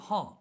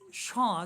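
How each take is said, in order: First: The word begins with an 'h' sound. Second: The word begins with an 'sh' sound. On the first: This is the eastern dialect form. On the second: This is the standard form.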